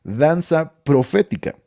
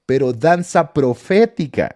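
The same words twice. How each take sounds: First: "Danza profética" repeated slowly, stressing "danza"; emphatic repeat. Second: "danza profética" said slowly, leaning on "danza"; emphatic slow. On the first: (repitiendo despacio "Danza profética", acento fuerte en "danza") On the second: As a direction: drag out "danza profética" with weight on "danza". (recalcando despacio "danza profética", con peso en "danza") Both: Real, not acted. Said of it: "Escúcheme lo que le estoy diciendo".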